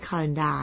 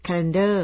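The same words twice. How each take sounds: First: Calendar ending in a long open "-daa"; wrong reading. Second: Calendar ending in a reduced "-der"; correct reading. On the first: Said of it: "ไม่ใช่ calendar นะคะ". (อ่าน calendar ผิดเป็น คาเลนดา) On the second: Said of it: "ไม่ใช่ calendar นะคะ จริงๆอ่าน". (อ่าน calendar ว่า แคเลนเดอร์) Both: Shown as a demonstration.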